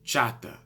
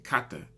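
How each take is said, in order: First: The word begins with a ch sound. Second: The word begins with a k sound. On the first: The speaker calls it wrong. "I'm actually mispronouncing it for the sake of Spanish" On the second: The speaker calls it right. "So it's actually kata"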